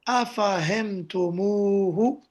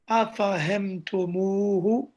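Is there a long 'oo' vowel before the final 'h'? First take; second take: yes; yes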